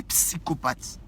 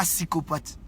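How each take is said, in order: First: "psychopathe" with the initial p pronounced before the s; p sounded. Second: "psychopathe" without its first p, starting on s; p left silent. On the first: Correcting someone's word, "psychopathe" begun on a clear ps. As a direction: pop the p in "psychopathe": p-si-ko-pat. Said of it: "on dit psychopathe". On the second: Correcting someone's word, "psychopathe" begun on a bare s. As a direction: say "psychopathe" as if spelt "sikopat". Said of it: "on dit pas psychopathe". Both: Shown as a demonstration.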